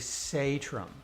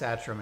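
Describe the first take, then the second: First: The name is said with Norwegian pronunciation. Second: The name is said with American pronunciation. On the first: This is how it is said in the home country. The speaker calls it right. "Satram would be the correct pronunciation" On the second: This is how the immigrant family has said it. The speaker calls it wrong. "all my life, I've been telling people it's Satram"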